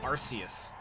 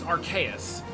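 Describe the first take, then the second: First: The name does not begin with 'ark'. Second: The name begins with an 'ark' sound. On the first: The speaker calls it wrong. "I know so many people call it Arceus" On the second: The speaker calls it right. "No, it's Arceus, because it's meant to be a combination of Arcane and Deus"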